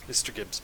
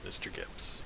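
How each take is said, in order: First: An interrogator leaning in to threaten his prisoner; menacing murmur. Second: Whispered threat, barely any voice; an interrogator whispering menace at his captive; menacing whisper. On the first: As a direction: say his name softly like a warning. Interrogator toys with the captive. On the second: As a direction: breathe his name as a quiet threat. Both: Acted.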